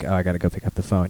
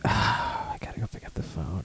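First: It sounds carefree and unbothered. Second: It sounds reluctant and full of dread.

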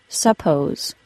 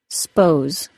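First: The word is said with two syllables. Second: The word is said as one syllable. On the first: "for suppose" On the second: "reduced to a single syllable"

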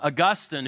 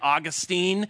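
First: The name is said the speaker's usual way. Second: The name is said the way Floridians say it.

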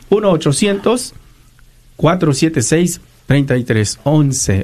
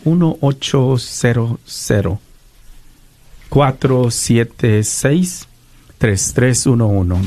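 First: The number is said quickly. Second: The number is said slowly.

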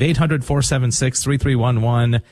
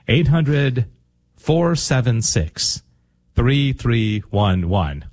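First: The number is said fast. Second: The number is said slowly.

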